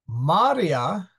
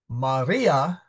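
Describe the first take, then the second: First: The stress is on the first syllable. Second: The stress is on the second syllable. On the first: It means seas or bodies of water. "The I is short, and therefore the A is stressed" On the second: It names the mother of Jesus. "the I is long. And since that is the second syllable, it is stressed"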